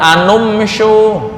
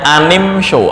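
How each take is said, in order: First: The linking vowel is a u sound. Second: The linking vowel is an i sound. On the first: The speaker calls it wrong. "Boleh nggak dibaca dhammah anum show? Nggak bisa" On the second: The speaker calls it right. "yang kasrah contohnya anim show"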